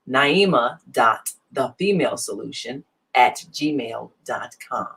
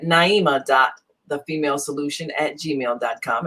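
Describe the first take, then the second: First: The address is said slowly, giving time to follow. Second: The address is said quickly, without slowing down. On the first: The speaker calls it right. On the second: The speaker calls it wrong.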